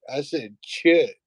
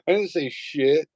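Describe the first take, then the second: First: "chit" said slowly with a hard CH onset; high kid voice, stressing the CH of "chit". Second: Put-on high kid voice, clearly saying "shit" with SH; plain SH in shit. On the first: Retold or imitated. Son correcting his mom, "chit" with crisp CH. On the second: Son denying the swear to mom, "shit" with plain SH. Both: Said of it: "No, I said chit".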